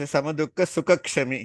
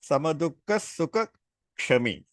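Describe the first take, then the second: First: Sukha and Kshami run together without pause. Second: There is a pause between Sukha and Kshami. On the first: He is forgiving of pleasure. The speaker calls it wrong. "a lot of people say" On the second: Forgiving is a separate quality. The speaker calls it right. "we are supposed to give a gap between Sukha and Kshami"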